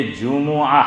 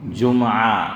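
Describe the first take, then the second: First: "جمعہ" drawn out as ju-mu-aa; correct Arabic pronunciation. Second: "جمعہ" in two syllables, jum-aa. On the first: Preacher giving listeners the corrected word, careful Arabic pronunciation. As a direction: put a short u after the meem in "جمعہ": ju-mu-aa. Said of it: "تو یہ ہے". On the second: Preacher answering his own question on what we say, everyday mispronunciation. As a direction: close the meem in "جمعہ": jum-aa. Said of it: "کیا بولتے ہیں؟". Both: Shown as a demonstration.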